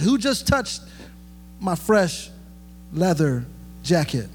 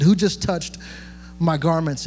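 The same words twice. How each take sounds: First: A joking Jesus who cares about his clothes; mock Jesus. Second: Said in the usual way. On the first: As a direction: tease it like he's worried about his jacket. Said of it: "He didn't say that". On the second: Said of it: "He didn't say that. He said".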